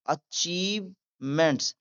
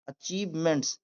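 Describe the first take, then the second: First: Achievements slowly split in two, "achieve", "ments"; syllable by syllable. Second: Said in the usual way. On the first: Shown as a demonstration. Teacher demonstrating the word to learners, syllable by syllable. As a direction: draw out "achievements" with a break inside. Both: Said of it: "आगे पढ़ते हैं".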